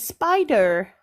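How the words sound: It is said with an American accent. "in an American accent, I would have to say"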